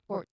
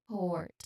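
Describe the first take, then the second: First: The vowel is clipped short. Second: The vowel is drawn out long. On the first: The speaker calls it wrong. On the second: The speaker calls it right. "it sounds a little bit longer"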